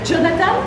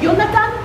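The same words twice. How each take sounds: First: The name begins with a soft zh sound. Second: The name begins with a y sound. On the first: This is how French speakers say the name. "Et vous dites euh, euh, Jonathan" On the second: This is how Hebrew speakers say the name. "et nous on dit Jonathan"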